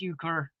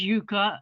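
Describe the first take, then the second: First: It is said with an R at the end. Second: It is said without an R at the end. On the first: "the American pronunciation is euchre" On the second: "the British pronunciation is yucca"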